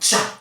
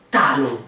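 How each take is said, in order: First: The t is said like ch. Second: The t is a plain t sound. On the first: The speaker calls it wrong. "on dit pas tsa ou tcha" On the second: The speaker calls it right. "on dit talon"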